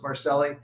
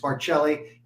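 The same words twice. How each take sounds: First: The name is said with anglicized pronunciation. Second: The name is said with Italian pronunciation. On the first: It is the way people on the West Coast say it. "On the West Coast, they don't know from Italian, so it's Marcelli" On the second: It is the way people in New York say it. "for the people in New York, it's Marcelli"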